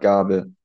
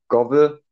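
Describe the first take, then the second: First: The first vowel is an open a sound. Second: The first vowel is an o sound. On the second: "das mittelhochdeutsche B"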